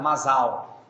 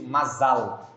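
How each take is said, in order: First: "mazal" with the final L turned to W, like mazaw; Brazilianized pronunciation. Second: "mazal" ending in a clear L; Hebrew pronunciation. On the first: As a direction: say "mazal" Brazilian style, ending in a W sound. ("mazal" abrasileirado, com L virando U no final) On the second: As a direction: say "mazal" the Hebrew way, with a crisp final L. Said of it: "corretamente dito". ("mazal" com L final bem pronunciado) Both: Shown as a demonstration.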